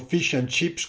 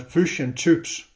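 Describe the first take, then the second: First: It is said with a standard English accent. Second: It is said with a New Zealand accent. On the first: "il classico" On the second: "quei pochi neozelandesi ... pronunciavano"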